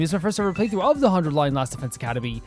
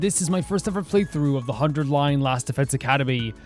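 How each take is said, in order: First: It sounds like an ordinary casual speaking voice. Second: It sounds like an old-fashioned radio news announcer.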